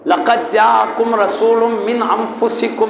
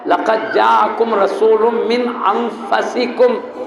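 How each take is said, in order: First: انفسکم with a short u after the f, "anfusikum"; slow recitation, saying انفسکم as "an-FU-si-kum"; pesh on انفسکم. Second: انفسکم with a short a after the f, "anfasikum"; slow recitation, saying انفسکم as "an-FA-si-kum"; zabar on انفسکم. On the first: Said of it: "انفسکم کے فے کو پیش". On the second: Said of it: "فے کے زبر کے ساتھ". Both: Shown as a demonstration.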